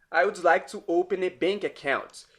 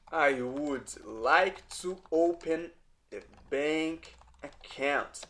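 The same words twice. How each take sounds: First: Said in the usual way. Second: Slow, careful, word by word; "I would like to open a bank account" said slowly, each word set apart; slow teaching demo. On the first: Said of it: "teacher models the phrase". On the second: Shown as a demonstration. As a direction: drag it out so students can follow. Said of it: "teacher repeats the phrase for learners".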